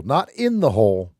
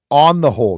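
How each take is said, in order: First: "not in the hole" with "in" stressed. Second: "On the whole" with "whole" said loud; stress on "whole". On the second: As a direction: punch "whole" in "On the whole". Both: Shown as a demonstration.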